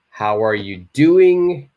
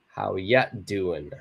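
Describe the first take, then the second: First: The words 'are you' are said in full. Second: The words 'are you' are reduced to 'ya'.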